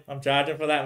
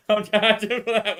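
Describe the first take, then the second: First: Said in the usual way. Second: Higher, slow, through a laugh; giggling the joke again. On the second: Real, not acted. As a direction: laugh while repeating it. Repeats line laughing.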